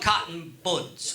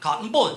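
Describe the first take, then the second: First: It is said in a plain American accent. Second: It is said in an imitated English accent.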